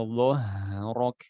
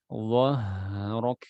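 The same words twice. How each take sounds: No difference in how they are said.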